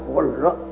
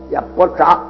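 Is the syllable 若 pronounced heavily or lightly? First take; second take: lightly; heavily. First: The second syllable is pronounced lightly. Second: The second syllable is pronounced heavily. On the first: The speaker calls it right. "还是应该念" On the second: The speaker calls it wrong. "那个若字念的口音重了一点"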